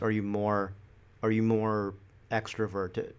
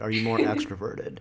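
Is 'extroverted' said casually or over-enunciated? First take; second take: enunciated; casual. First: The word extroverted is articulated very carefully. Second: The word extroverted is articulated casually.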